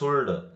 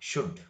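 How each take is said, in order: First: The L sound is pronounced before the D. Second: The L sound is silent before the D. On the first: The speaker calls it wrong. "Not ಸುಲ್ಡ್" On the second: The speaker calls it right. "ಅದಕ್ಕೆ ಶುಡ್ ಇರಬೇಕು"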